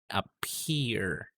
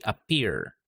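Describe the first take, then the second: First: The P is released with a puff of air. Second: The P is released without a puff of air. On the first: The speaker calls it right. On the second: The speaker calls it wrong.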